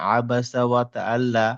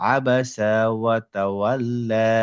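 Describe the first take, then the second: First: The final vowel is cut short. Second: The final vowel is drawn out long. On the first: The speaker calls it wrong. "তাহলে টানটা হলো না" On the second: The speaker calls it right. "মাদের টানটা আমাকে দিতে হবে"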